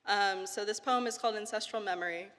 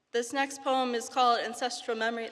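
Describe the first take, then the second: First: Said in the usual way. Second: Giggly nervous intro; nervous open mic poet. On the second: Real, not acted. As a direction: introduce the poem with a shy laugh. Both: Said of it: "repeated title".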